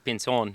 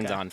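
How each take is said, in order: First: The name is said with a Spanish accent. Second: The name is said with an English pronunciation. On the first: "if you're saying it with an accent" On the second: "for most people"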